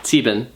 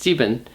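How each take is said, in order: First: The word has two syllables, sie-ben. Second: The same.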